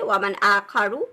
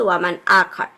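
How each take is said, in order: First: The last word ends with a short u vowel. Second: The last word stops on the final r. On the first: The word is read on without stopping. "হারাকা দিলে ওয়ামান আখারু" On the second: The reader pauses at this word. "আমরা থেমে যাচ্ছি"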